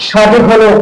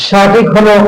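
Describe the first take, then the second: Both takes have the same delivery.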